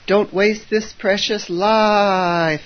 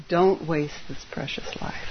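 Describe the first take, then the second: First: Slow, drawn-out higher chant; chanted, stretch each word like a monk's call; dramatic chant. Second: Soft whispered warning. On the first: Retold or imitated. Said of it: "And they'll go". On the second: Shown as a demonstration. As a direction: breathe it out as a secret. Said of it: "I'm gonna say it again".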